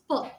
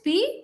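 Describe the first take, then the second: First: It is said as a short puff, no vowel. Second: It is said as the letter name, with a vowel. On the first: It stands for the spoken sound. "but sound is P" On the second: It names the written letter. "Letter is P"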